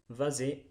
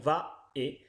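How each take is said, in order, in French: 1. Un son z de liaison relie les deux mots. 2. Les mots sont prononcés sans son z de liaison. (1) "pour simplifier la liaison" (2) "On ne va pas dire"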